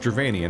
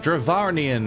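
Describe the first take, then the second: First: The name is said without an extra R sound. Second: The name is said with an extra R sound. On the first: The speaker calls it right. "it's Dravanian, obviously" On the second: The speaker calls it wrong. "she added an R to the name"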